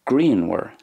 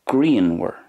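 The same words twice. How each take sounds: Both takes have the same delivery.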